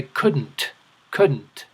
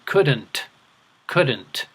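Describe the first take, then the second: First: Couldn't with the d swallowed, almost kuh-n't; couldn't with no clear d. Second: Couldn't with the d lightly sounded; couldn't with a careful d; d pronounced. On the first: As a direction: say couldn't gliding straight to the n. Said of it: "swallow the D and say". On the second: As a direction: say couldn't with a little d before the n. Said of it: "pronounce that D a little bit". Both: Shown as a demonstration.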